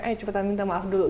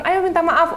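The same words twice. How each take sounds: First: Firm quiet prompt. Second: Higher, coaxing mum prompting her son. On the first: Mum taking son aside, quiet firm prompt. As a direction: lower and softer, firm but hushed. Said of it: "aku ambil anaknya". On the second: Mum urging son to apologise, higher coaxing voice. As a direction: nudge the child brightly to apologise. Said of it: "makanya dia bilang". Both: Retold or imitated.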